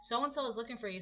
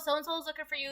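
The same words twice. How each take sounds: First: It is said in a serious, warning tone. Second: It is said in a casual, offhand tone.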